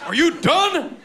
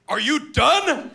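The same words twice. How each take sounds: First: Much higher, squeaky mock-polite ask; repeating the question even higher; higher prissy question. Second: High, slow, prim asking; imitating himself mid-choke; mock polite question. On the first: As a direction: pipe it up like a prim little voice. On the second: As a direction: ask it sweetly like a butler.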